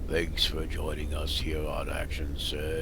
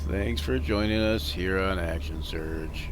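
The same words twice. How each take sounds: First: It sounds gravelly with a little feeling. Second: It sounds flat and completely dead inside.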